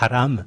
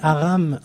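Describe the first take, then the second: First: The opening h is a harsh throaty sound. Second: The opening h is silent, French style. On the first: "Un peu comme si vous aviez de la harissa coincée dans la gorge" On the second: "avec la prononciation française"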